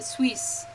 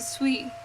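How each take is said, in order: First: The final s sound is pronounced. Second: The final s sound is silent. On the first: The speaker calls it wrong. "You don't pronounce it Suisse" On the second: The speaker calls it right. "you pronounce it suis"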